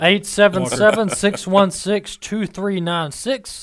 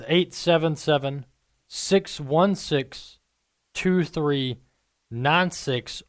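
First: The number is said at a quicker pace. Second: The number is said slowly and carefully.

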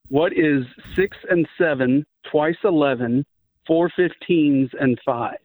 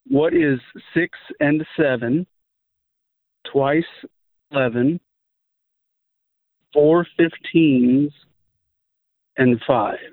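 First: The question is said at a normal pace. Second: The question is said at a slow pace.

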